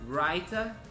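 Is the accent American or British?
British. It is said in a British accent. "por uma pronúncia mais britânica"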